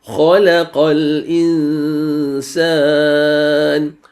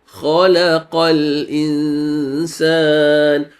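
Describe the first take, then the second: No difference in how they are said.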